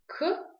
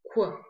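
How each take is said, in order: First: «к» высоко и отрывисто, губы не округлены; коротко обруби простое «к». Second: «к» округлёнными губами, с призвуком «у»; округли губы и произнеси «к»; к с округлением губ. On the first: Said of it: "Попробуйте произнести звук". («к» без округления губ) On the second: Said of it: "при этом округляя губы". (огублённое «к», как «кв») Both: Shown as a demonstration.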